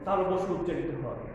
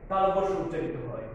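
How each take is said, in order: Both takes have the same delivery.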